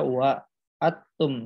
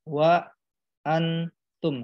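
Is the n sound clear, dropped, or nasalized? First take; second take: dropped; clear. First: The n sound is left out entirely. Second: The n is pronounced fully and clearly. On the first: "jadi bukan dibaca wa atum" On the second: "bukan wa antum"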